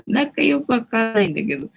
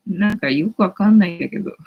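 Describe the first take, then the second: First: Laughing through it, voice lifted; laughing repeat. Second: Said in the usual way. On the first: Real, not acted. Streamer repeating her own line to viewers, laughing. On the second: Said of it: "second take with a laugh".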